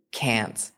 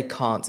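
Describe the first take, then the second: First: "can't" with the A of "cat", as Americans do; American short-A can't. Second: "can't" with the AH of "father"; southern British vowel in "can't"; British long-A can't. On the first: Retold or imitated. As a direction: say "can't" rhyming with "pant". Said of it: "Americans say can't". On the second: Shown as a demonstration. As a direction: say "can't" as "kahnt". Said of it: "I say can't as well".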